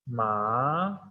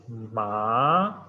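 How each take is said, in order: First: The syllable is said with the second tone. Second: The same.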